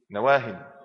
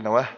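First: نواه read with a final -in, nawaahin; tanween ending. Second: نواه cut short as nawaah, no -in; misread ending. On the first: Shown as a demonstration. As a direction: end نواه on a clear "-hin". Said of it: "مكتوب عندك في الكتاب نواهي". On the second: Retold or imitated. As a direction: stop نواه on the h. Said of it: "إيه واحد يقول".

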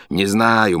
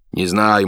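First: Muffled mumble through a gag; gagged. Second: Mumbling through a gag; gagged. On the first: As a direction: speak round a gag, mumbling. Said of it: "мычит". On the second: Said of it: "мычит боцман". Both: A narrator's reading.

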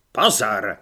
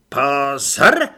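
First: Low, firm order with a falling end; drill command. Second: Very loud drill cry, rising at the end; brisk, with feeling. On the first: Corporal calling recruits to attention, first command. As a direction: call them to attention, low and loud. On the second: Corporal repeating the order to recruits, with feeling. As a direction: belt out the command with feeling. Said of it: "teď svižně a s citem". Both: A narrator's reading.

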